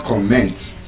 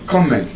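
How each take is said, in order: First: "comment" as com-MENT; weight on -MENT in "comment"; wrong second-syllable stress. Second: "comment" as COM-ment, even as a verb; first-syllable stress. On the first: Teacher showing what not to say, second-syllable stress on "comment". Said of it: "not comment on something". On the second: Teacher modelling the verb correctly, first-syllable stress on "comment". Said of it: "not comment". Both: Shown as a demonstration.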